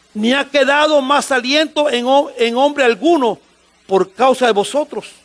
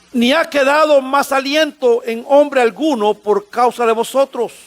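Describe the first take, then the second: The two takes are said the same way.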